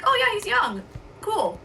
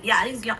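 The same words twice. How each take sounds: First: Lightly upbeat, an easy passing remark; cheerful, no offence. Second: Flatter, lower, a mild put-down; dismissive take. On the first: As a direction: say it breezily like a friendly aside. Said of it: "I was like". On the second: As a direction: toss it off as a slight dig. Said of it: "But then you took it as". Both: Retold or imitated.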